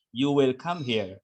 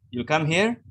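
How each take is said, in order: First: You will come here, falling at the end; flat statement. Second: You come here, with here rising up; rising question tune. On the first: Teacher contrasts statement with question. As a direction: say it as a plain statement, tone dropping. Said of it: "In grammar". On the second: Teacher shows rising tone makes a question. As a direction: lift the tone on here to ask. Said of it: "Then you have to say yes or no". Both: Shown as a demonstration.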